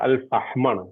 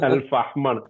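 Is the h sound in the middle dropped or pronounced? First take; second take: pronounced; pronounced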